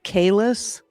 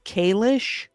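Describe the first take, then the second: First: The name ends with a plain s sound. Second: The name ends with an sh sound. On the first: This is how the name is supposed to be pronounced. The speaker calls it right. "instead of saying like Kalis" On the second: This is how the show pronounces the name. The speaker calls it wrong. "they say like Kalish"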